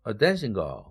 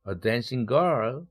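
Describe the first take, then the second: First: The main stress falls on dancing. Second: The main stress falls on girl. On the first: A girl whose job is dancing. "dancing의 일강세, girl은 삼강세로 떨어져 준다" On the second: A girl who is dancing right now. "dancing 현재 분사로서 girl을 꾸며주죠"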